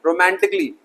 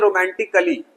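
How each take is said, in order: First: रोमांटिकली ending in a joined "क्ली"; correct pronunciation. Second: रोमांटिकली with a full "कली" ending; common mispronunciation. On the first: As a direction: drop the vowel, रोमांटि-क्ली. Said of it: "no, गलत". (सही उच्चारण, रोमांटिकली के अंत में "क्ली") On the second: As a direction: add a vowel, रोमांटि-कली. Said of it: "लोग पढ़ते हैं रोमांटिकली". (गलत उच्चारण, रोमांटिकली के अंत में "कली") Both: Shown as a demonstration.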